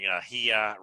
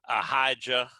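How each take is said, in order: First: The name is said without a J sound. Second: The name is said with a J sound. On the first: This follows the original Hebrew form. The speaker calls it right. "if you look at the Hebrew, there is no J in there" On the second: This is an English rendering of the name. The speaker calls it wrong. "an English way"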